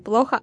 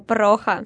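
First: The word is said with an L sound. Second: The word is said with an R sound. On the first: The speaker calls it right. "Они часто путают L и R. Говорят не плохо" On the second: The speaker calls it wrong. "а прохо"

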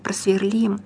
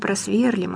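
First: The stress is on the last syllable. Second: The stress is on the first syllable. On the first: The speaker calls it right. "а «просверлим»" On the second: The speaker calls it wrong. "Не «просверлим»"

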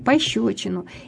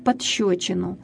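First: No extra consonant comes before the shch sound. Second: An extra consonant is inserted before the shch sound. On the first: The speaker calls it right. "На самом деле он дал ему пощечину" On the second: The speaker calls it wrong. "люди говорят, он дал ему подщечину"

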